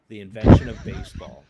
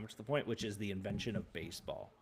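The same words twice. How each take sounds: First: Loud, punchy repeat of the title; emphatic loud repeat. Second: Said in the usual way. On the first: Real, not acted. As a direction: announce it big. Punchline repeat, much louder.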